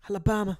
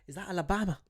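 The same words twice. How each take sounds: First: Alabama belted higher and louder with a falling tune; Alabama said bold. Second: Plain. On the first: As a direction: punch out Alabama proudly. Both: Shown as a demonstration. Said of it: "I love when I say Alabama".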